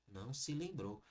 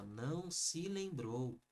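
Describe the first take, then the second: First: Said in the usual way. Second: "se" added and said slowly in "Não se lembrou"; slow corrected phrase with "se"; correction stressed. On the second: Shown as a demonstration. Teacher giving the corrected sentence, slow. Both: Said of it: "Faltou o C aqui".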